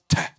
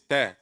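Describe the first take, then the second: First: The ta is said with a strong puff of air. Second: The ta is said with a slight puff of air. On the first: The speaker calls it wrong. "You put it too much. It's not ta" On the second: The speaker calls it right. "It's ta ... Say it right with a little bit of air"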